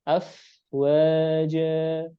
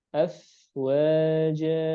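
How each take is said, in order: Both takes have the same delivery.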